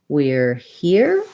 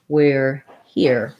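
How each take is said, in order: First: The voice rises at the end. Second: The voice drops off at the end. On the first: It is a question. "I would be rising" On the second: It is a finished statement. "I'm going to use a little bit of a dropping off to show that my statement is finished"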